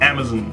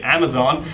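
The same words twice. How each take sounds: First: The last syllable does not have a full 'on' vowel. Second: The last syllable has a full 'on' vowel. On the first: This is the British or Australian pronunciation. "I will just keep saying Amazon" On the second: This is the pronunciation the commenters suggest. "But of course I could say Amazon"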